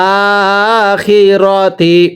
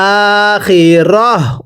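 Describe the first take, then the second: First: The word ends with a 'ti' syllable. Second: The word ends with a soft 'h' sound. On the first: The word is read without stopping on it. "তা জের তি" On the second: The reader stops on the word. "ওয়াকফের সময় এই গোলতাটা হা বানিয়ে পড়তে হয়"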